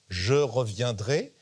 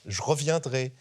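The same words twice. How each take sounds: First: The unstressed e vowels are fully pronounced. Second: The unstressed e vowels are dropped entirely. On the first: "il ne dit pas" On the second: "il lui a fait supprimer les E"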